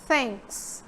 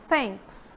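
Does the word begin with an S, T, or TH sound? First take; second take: TH; TH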